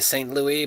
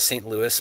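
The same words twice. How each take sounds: First: Louis ends without an s sound, French style. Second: Louis ends with an s sound, American style. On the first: This is the original French form of the name. "it is probably really Saint Louis" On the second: This is how locals commonly say the name. "we all call it Saint Louis"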